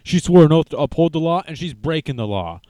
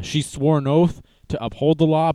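First: Higher and louder, a jeering put-on voice for the first line, then back down; hammed-up indignant crowd voice; mock outraged crowd. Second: Said in the usual way. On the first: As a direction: parody people who cheer the opposite case. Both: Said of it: "and they're like".

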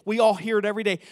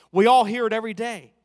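First: Said in the usual way. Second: Louder, ringing pulpit cry; loud preaching emphasis; preached. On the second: Acted. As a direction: drive it home to the church. Preacher presses point to congregation.

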